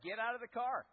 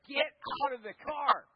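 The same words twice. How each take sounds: First: Firm, somewhat louder retold command; curt angry order. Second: Much louder, higher angry yell; furious dad shout. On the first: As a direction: cut him off short. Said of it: "He's just like". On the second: Retold or imitated. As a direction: bark it like a fed-up dad. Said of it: "my dad was like".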